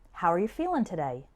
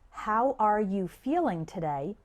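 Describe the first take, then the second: First: The words are linked and sounds are reduced. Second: Each word is pronounced separately and clearly.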